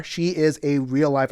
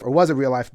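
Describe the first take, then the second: First: Said in the usual way. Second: Was stressed as a correction. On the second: Shown as a demonstration. Correcting himself about Rankin, stress on was. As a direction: lean on the word was to fix the tense.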